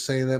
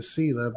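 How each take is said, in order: First: Selah with a long A, SAY-luh. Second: Selah with a long E, SEE-luh. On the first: Host naming his granddaughter, Selah said SAY-luh. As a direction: pronounce Selah "SAY-luh", like the day. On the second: Host giving the other pronunciation, Selah said SEE-luh. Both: Shown as a demonstration. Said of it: "They may say, pronounce it Selah".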